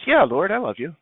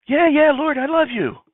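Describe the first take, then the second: First: Lightly acted, readily given yes; mildly acted eager reassurance; easy assurance. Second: High, loud, exasperated assurance; acted-out irritated yes, pitched way up; impatient insistence. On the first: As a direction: answer readily, a little higher. Peter's first, easy answer. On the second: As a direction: insist as if pestered by the question. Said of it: "What's your problem?".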